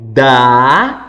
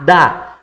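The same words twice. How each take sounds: First: The syllable is drawn out, at raised pitch. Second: The syllable is short, at ordinary pitch. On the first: The adult repeats the syllable to support the child. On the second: The child reads the syllable.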